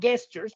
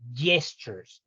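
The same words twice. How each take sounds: First: The word begins with a hard G sound. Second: The word begins with a soft J sound. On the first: The speaker calls it wrong. "no gestures, porque eh, la, eh, la G de gato no aplica en este caso" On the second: The speaker calls it right.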